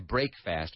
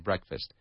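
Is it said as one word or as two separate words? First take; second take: two words; one word. First: It is said as two separate full words. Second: It is said as one reduced word. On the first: The speaker calls it wrong. "we don't say break fast" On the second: The speaker calls it right. "we say breakfast"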